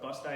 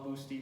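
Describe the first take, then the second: First: The name ends with an 'eye' sound. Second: The name ends with an 'ee' sound. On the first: This is the later local pronunciation. "it's pronounced Bust-I" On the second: This is the person's original name. "it's Paulo Gusti"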